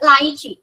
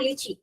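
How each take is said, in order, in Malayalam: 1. ആദ്യത്തെ syllable 'lie' പോലെയാണ് കേൾക്കുന്നത്. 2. ആദ്യത്തെ സിലബിൾ 'lee' പോലെയാണ് കേൾക്കുന്നത്. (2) "നോട്ട് ലിച്ചി"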